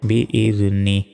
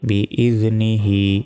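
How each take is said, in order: First: The phrase is cut off before -hi. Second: The phrase ends with a full -hi ending. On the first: The recitation stops on this word. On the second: The recitation continues without a stop.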